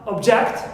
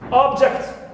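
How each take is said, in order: First: The stress is on the second syllable. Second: The stress is on the first syllable. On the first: It is used as a verb. "If we stress second one, object, becomes a verb" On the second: It is used as a noun. "If we stress the first syllable, it is noun"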